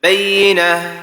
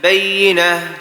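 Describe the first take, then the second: First: The doubled 'yy' sound is rushed over quickly. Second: The doubled 'yy' sound is rushed over quickly.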